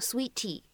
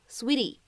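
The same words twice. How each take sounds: First: The t is a clear, aspirated stop. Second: The t is a quick, soft flap. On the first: The speaker calls it wrong. "不用发一个特别清晰送气的一个T，你不需要在美式发音当中呢读成Sweetie" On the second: The speaker calls it right. "会读一个闪音的处理"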